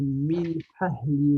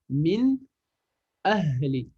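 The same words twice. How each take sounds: First: The n sound blends into the following sound. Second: The n sound is pronounced clearly and separately. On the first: The speaker calls it wrong. "je vais pas fusionner les lettres" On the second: The speaker calls it right. "je lis chaque lettre séparément"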